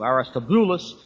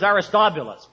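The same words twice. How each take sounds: First: The stress is on the 'bu' syllable. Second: The stress is not on the 'bu' syllable. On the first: The speaker calls it right. "The accent is over on the boo" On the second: The speaker calls it wrong. "So here's Aristobulus"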